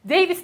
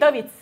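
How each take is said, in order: First: The name is pronounced as it is spelled. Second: The name is pronounced in its native way. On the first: The speaker calls it wrong. "Ben bunu David diye okurdum" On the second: The speaker calls it right. "David değil David"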